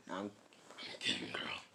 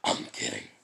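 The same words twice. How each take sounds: First: Soft whispered beast rasp; weak attempt at a monster voice; Kurama. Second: Very deep beast growl; second go at a deep monster voice; Kurama. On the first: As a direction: rasp it quietly, without voice. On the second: Shown as a demonstration. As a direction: growl it out low and strong. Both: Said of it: "my Kurama voice isn't as good".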